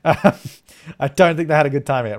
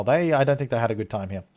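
First: Slower, laughing through the words; amused, drawn-out repeat. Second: Said in the usual way. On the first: Real, not acted. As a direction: chuckle as you say it again.

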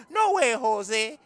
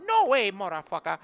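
First: Slow teasing No way, Jose refusing to go; slow drawn-out. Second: Said in the usual way. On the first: Acted. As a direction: stretch out No way, Jose very slowly.

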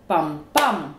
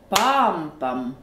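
First: "pam, PAM", second beat hit harder; light first pam, hammer the last pam; stress on second beat. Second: "PAM, pam", first beat long and strong; stress on first beat. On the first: Teacher showing two-syllable rhythm, "pam, PAM" stressed at the end. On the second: Teacher showing two-syllable rhythm, "PAM, pam" stressed at the start. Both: Shown as a demonstration. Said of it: "se crée un rythme différent".

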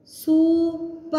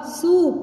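First: सूप with a long drawn-out ऊ; stretched long vowel. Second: Said in the usual way. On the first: Shown as a demonstration. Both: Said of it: "लंबा खींचना है".

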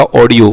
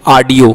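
First: "ऑडियो" with a rounded "aw" opening, "aw-dio"; correct audio. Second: "ऑडियो" said with a long "aa" opening, "aa-dio"; mispronounced audio. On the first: Teacher correcting the students, "ऑडियो" pronounced "aw-dio". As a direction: round the first vowel of "ऑडियो" to "aw". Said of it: "ये होता ऑडियो". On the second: Teacher showing students their common slip, "ऑडियो" mispronounced as "aadio". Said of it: "ऑडियो नहीं होता". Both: Shown as a demonstration.

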